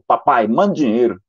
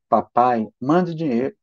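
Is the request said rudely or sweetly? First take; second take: rudely; sweetly. First: It is said in a rude, demanding tone. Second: It is said in a sweet, gentle tone. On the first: The son is being ungrateful and bossy. The speaker calls it wrong. "olha como esse seu filho é ingrato. Isso é jeito de falar com o pai?" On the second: The son is asking kindly. The speaker calls it right. "não foi assim que ele falou"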